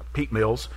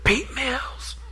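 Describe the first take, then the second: First: It is said in a normal voice. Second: It is said in a whisper.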